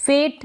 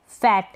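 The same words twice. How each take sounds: First: फेट with long "ay", like "fate"; wrong pronunciation. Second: फैट with short open "ae", as in "fat"; correct pronunciation. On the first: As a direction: say फेट with closed e vowel. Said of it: "नहीं पढ़ेंगे". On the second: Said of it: "फेट नहीं पढ़ेंगे". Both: Shown as a demonstration.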